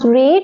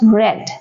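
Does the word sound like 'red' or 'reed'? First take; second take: reed; red. First: The vowel is long, like in 'reed'. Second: The vowel is short, like in 'red'. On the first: It is the present form of the verb. "First form we pronounce read" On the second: It is the past form of the verb. "other two forms we pronounce read"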